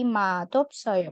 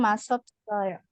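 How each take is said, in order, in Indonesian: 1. Bunyi konsonan penghubungnya seperti d. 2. Bunyi konsonan penghubungnya seperti s. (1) "dibaca seperti huruf diget"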